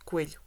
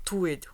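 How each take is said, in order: First: The word begins with a k sound. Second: The word begins with a t sound. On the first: This is the standard adult form of the word. The speaker calls it right. "the word in Portuguese for rabbit is uh, coelho" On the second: This is how a small child says the word. The speaker calls it wrong. "a mistake that children make when saying the word"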